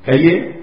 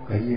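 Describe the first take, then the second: First: The word is said in a curt, harsh tone. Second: The word is said in a sweet, gentle tone. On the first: The speaker calls it wrong. "स्वर मीठा नहीं है" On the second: The speaker calls it right. "ये तो मधुर है"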